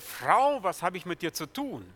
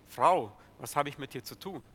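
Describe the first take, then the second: First: It is read in an exaggerated, unfriendly tone. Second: It is read in a calm, sober, relaxed tone. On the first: The speaker sounds dismissive toward the woman. The speaker calls it wrong. "Ich habe das jetzt etwas übertrieben gelesen" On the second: The speaker is addressing the woman in a normal, neutral way. The speaker calls it right. "Ganz ruhig, ganz gelassen und sehr nüchtern"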